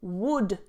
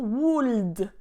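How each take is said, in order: First: The L sound is silent. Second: The L sound is clearly pronounced. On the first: The speaker calls it right. "Don't pronounce the L" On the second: The speaker calls it wrong. "not would"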